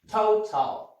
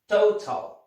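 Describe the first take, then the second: First: The first vowel glides as a diphthong. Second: The same.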